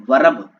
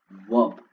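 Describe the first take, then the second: First: वर्ब said loud with a rolled r, as varab; wrong pronunciation. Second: वर्ब said as vob with no r sound; correct pronunciation. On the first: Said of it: "इस तरीके से नहीं पढ़ना है". (गलत उच्चारण, आर के साथ) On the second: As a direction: drop the r in वर्ब. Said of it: "सही प्रोनाउंसिएशन होगी वो होगी वर्ब". (सही उच्चारण, बिना आर) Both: Shown as a demonstration.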